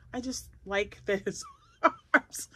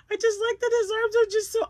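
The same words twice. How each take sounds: First: Said normally, breaking into a laugh; just a light giggle mid-line; chatty take with a chuckle; plain with a laugh. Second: Much higher and louder, gushing; high excited gush over the cute frog; squealy delight. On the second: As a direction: squeal it like you adore him. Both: Real, not acted.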